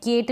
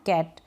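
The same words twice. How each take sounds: First: केट said with a long e; the wrong take केट, e vowel; wrong vowel kate. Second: कैट with an open ae, dropped low; cat with ae vowel. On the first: Teacher shows wrong केट, long e. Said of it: "केट नहीं पढ़ रहे हैं हम". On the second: Teacher gives the right कैट, open ae. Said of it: "इसको कैट पढ़ रहे हैं". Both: Shown as a demonstration.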